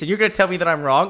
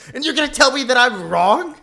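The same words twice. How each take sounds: First: It is said in the speaker's normal voice. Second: It is said in an exaggerated put-on voice.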